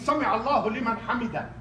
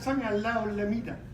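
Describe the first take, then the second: First: The ending is clearly said as 'liman hamida'. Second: The ending is slurred into 'al-lamida'. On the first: The speaker calls it right. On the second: The speaker calls it wrong. "He said"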